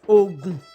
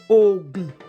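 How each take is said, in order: First: The tones are low then low. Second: The tones are low then low.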